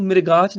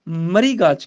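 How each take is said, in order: First: ਮ੍ਰਿਗਾਚ said as mir-gach; ਮ੍ਰਿਗਾਚ with the i moved before r; wrong pronunciation. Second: ਮਰੀਗਾਚ said as ma-ree-gach; ਮਰੀਗਾਚ, i vowel after r; correct pronunciation. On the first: Teacher showing the wrong way, ਮ੍ਰਿਗਾਚ said as mirgach. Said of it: "ਇਹਨੂੰ ਮ੍ਰਿਗਾਚ ਨਹੀਂ ਕਹਿਣਾ". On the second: Teacher correcting students, ma-ree-gach with i after r. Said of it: "ਮਰੀਗਾਚ ਕਹਿਣਾ ਹੈ". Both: Shown as a demonstration.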